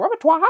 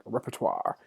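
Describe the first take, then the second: First: Repertoire said wrong, pitched way up with the ending popped high; a squeaky-high, mangled Repertoire; mispronounced repertoire. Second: Said in the usual way. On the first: Shown as a demonstration. Teacher jokes about saying a big word wrong, mispronounced high. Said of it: "but that's not right". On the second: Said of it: "say it right".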